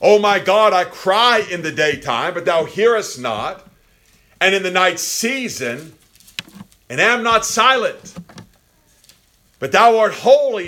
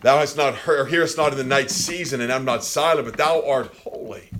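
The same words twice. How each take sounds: First: High, loud cry from the cross. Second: Said in the usual way. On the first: Acted. Voicing Christ calling to God from the cross, crying out. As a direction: cry it out to God, pitch raised. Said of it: "he cries out from the cross". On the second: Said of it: "he prays to his father".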